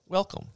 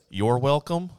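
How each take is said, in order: First: "welcome" alone, high and falling; a lone high WELCOME with no "you're"; bare "welcome". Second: YOU'RE said clearly before "welcome", lifting at the end; full "you're welcome". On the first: Quotes other people's reply, a bare falling "welcome". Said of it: "they say". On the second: Shows their own reply, "you're welcome" in full. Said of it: "which is what I would say". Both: Shown as a demonstration.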